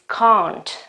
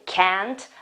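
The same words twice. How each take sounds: First: It is said in a British English way. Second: It is said in an American English way. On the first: The speaker calls it right. "original pronunciation, which is can't" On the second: The speaker calls it wrong. "quite typical of American English"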